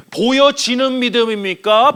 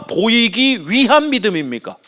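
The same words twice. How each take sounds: First: 보여지는 drawn out slowly; slow, deliberate emphasis on 보여지는; stress on 보여지는. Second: 보이기 위한 drawn out slowly; slow, deliberate emphasis on 보이기 위한; stress on 보이기 위한. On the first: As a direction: lean on 보여지는, stretching it. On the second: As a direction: spell out 보이기 위한 phrase by phrase. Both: Shown as a demonstration. Contrasts two kinds of faith.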